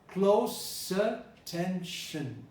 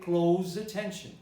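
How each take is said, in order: First: Close does not sound like close the door. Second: Close sounds like the verb in close the door. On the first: The speaker calls it right. "Listen, I said close attention" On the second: The speaker calls it wrong. "you can close the door, but you cannot pay close attention"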